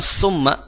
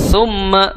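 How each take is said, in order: First: The word begins with a hissing 's' sound. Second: The word begins with a soft 'th' sound. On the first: The speaker calls it wrong. "bukan summa ya" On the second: The speaker calls it right. "huruf tha makhrajnya di ujung lidah bertemu dengan ujung gigi seri atas"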